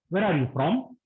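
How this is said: It is asked in a polite, gentle tone. It is a courteous question. The speaker calls it right. "These are polite questions"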